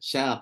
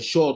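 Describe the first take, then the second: First: The vowel is a clear open 'a'. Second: The vowel is thickened toward a rounded 'o'. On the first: The speaker calls it right. "Sya tetap sya" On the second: The speaker calls it wrong. "Tak boleh baca syo"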